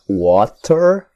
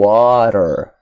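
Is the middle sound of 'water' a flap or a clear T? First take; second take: clear T; flap. First: The middle consonant is a clear T sound. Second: The middle consonant is a quick R-like flap. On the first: "com som de T" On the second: "com som de R"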